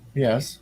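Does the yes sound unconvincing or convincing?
unconvincing. It sounds hesitant and unconvincing.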